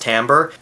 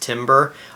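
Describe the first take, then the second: First: It does not sound like the word for wood. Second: It sounds like the word for wood. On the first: The speaker calls it right. "it's pronounced timbre" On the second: The speaker calls it wrong. "heard timbre pronounced timbre"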